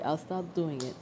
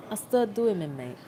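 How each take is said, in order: First: Said in the usual way. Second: Lightly put-on British accent; amateur British accent, half-joking; mock British accent. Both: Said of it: "speak in a British accent".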